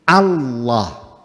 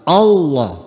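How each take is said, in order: First: The word begins with an open a vowel. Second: The word begins with an o vowel. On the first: The speaker calls it right. "Yang betul itu Hamzat Hamzatul Jalalah maftuhah" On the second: The speaker calls it wrong. "bukan Allah, bukan O"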